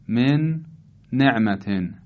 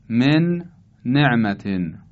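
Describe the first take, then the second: Both takes have the same delivery.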